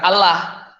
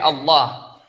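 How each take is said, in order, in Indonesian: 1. Vokal setelah 'l' terdengar seperti 'a' biasa. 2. Vokal setelah 'l' terdengar seperti 'o'. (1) "Bukan A gitu ya, bukan Allah" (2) "tapi Allah"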